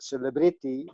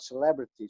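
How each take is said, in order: First: It is said with Indonesian sounds. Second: It is said with English sounds. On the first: "Everybody says" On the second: "and not celebrity"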